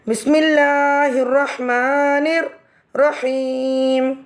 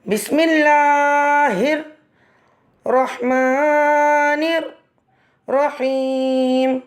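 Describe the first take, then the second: First: It is said in two parts with a pause. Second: It is said in three parts with pauses.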